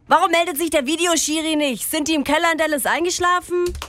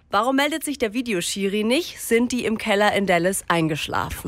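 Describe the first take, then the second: First: It is said in a brash, loutish way. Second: It is said in a plain, neutral way.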